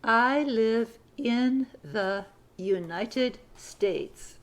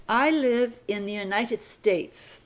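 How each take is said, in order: First: Very slow, word by word; very slow dictation. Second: Slow, deliberate read; slow dictation. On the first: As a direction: stretch the sentence out for dictation. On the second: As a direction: read it slowly for the class. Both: Shown as a demonstration. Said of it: "Sentence number fifty-four".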